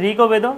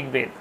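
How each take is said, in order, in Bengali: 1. ক-ধ্বনির পরে একটি স্বরধ্বনি যোগ হয়। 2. ব্যঞ্জনটি কোনো স্বরধ্বনি ছাড়াই সরাসরি যুক্ত হয়। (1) "নিশ্চয়ই বলছি না" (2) "তার জন্য আমরা বলছি ঋগ্বেদ"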